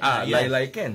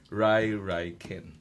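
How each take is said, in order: First: The name begins with an L sound. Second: The name begins with an R sound. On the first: This is the original form from Chinese. "the first Rai Rai Ken was called Lai Lai Ken" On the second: This is how Japanese speakers adapted it. "they pronounce it as Rai Rai Ken"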